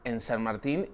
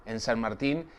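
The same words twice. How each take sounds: The two takes are said the same way.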